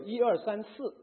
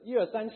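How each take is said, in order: First: It is said in standard Mandarin. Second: It is said with a Cantonese accent.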